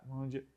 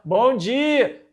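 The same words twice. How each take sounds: First: It is said quietly. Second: It is said loudly.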